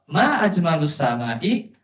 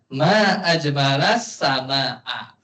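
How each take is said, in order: First: The two words end with u- and i-vowels. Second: The two words end with a-vowels. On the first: It asks what is most beautiful in the sky. "apa yang paling indah di langit?" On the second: It exclaims how beautiful the sky is. "Kalau uslubnya ta'ajub, bacanya ma ajmalas sama a"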